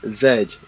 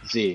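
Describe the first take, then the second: First: The letter is said the British way, 'zed'. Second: The letter is said the American way, 'zee'.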